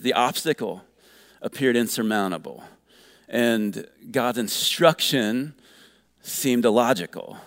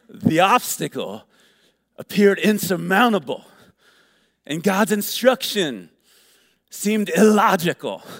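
First: It is read in a plain, ordinary voice. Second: It is read in a put-on preacher voice.

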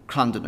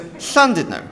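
First: The word begins with a hard 'cl' sound. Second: The word begins with a hissing 'hl' sound. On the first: The speaker calls it wrong. "when you see a double L, it's a cull sound. So you just say Llandudno" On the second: The speaker calls it right. "It's not a sound that you're used to, it's a sound. So it's Llandudno"

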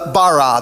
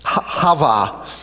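First: It is said with plain English sounds. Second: It is said with throaty, foreign-sounding consonants. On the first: "That's how we would say it" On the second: "you're supposed to roll the R's and talk with saliva in your throat"

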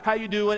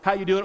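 First: It sounds like a caring, genuine question. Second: It sounds like a quick passing greeting.

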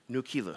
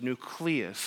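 First: The word is pronounced in a distorted way. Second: The word is pronounced the standard way. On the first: This is a joking mispronunciation of the name. The speaker calls it wrong. "He started calling it Nucleus" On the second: This is the real name of the software. The speaker calls it right. "The name of it is Nucleus"

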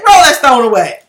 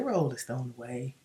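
First: It is said in a forceful, angry tone. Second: It is said in a mild, polite tone. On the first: Jesus is angry. The speaker calls it right. "No, you say" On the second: A gentle, polite request. The speaker calls it wrong. "When you're angry, you don't say"

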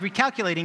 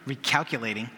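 First: The word is said in a plain, neutral tone. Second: The word is said with an annoyed, sassy tone. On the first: "It's not just like recalculating" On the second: "I think there's a little attitude"

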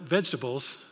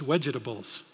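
First: The word starts with a V sound. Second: The word starts with a W sound. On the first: The speaker calls it right. "it wasn't vegetables" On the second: The speaker calls it wrong. "the V sound is a W, so it was wedgetables"

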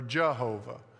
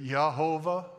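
First: The name begins with a j sound. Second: The name begins with a y sound. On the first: "or it could say Jah" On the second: "it could say Yah"

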